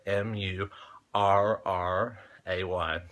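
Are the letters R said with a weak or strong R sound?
strong. The letter R is said with a strong R sound. "so I say"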